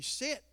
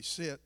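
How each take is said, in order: First: High-pitched little command, rising; imitating little Linda. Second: Low, brief command; master's command. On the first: Little Linda tells Ruby to sit, high imitated voice. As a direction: pitch it up for a small, ineffective order. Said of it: "little Linda, she could say". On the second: Retold or imitated. Dog's master tells Ruby to sit, low command. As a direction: say it low, as the one she obeys. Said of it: "I'd say".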